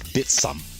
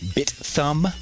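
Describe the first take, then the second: First: The middle consonant is a hard S sound. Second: The middle consonant is a soft TH sound. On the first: The speaker calls it right. "like with the, the hard S" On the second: The speaker calls it wrong. "how we normally think of"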